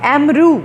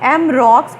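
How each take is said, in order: First: The name ends with an oo sound. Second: The name ends with a ks sound. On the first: "इसकी French pronunciation है एमरू" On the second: "ये हम इसको रॉक्स पढ़ते हैं"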